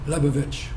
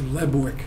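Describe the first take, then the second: First: The name has three syllables, ending in 'vich'. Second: The name has two syllables, ending in 'wick'. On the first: This is the original form from the old country. "the original Czechoslovakian pronunciation" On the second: This is the form adopted after immigrating. "they changed it to"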